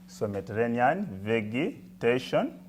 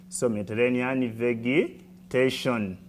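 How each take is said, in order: The two takes are said the same way.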